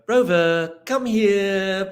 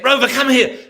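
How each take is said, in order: First: It is said in a sweet, coaxing tone. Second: It is said in a scared, anxious tone. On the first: The dog will only come when coaxed. "you've got sweet face on" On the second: The dog will not come. "scared and say"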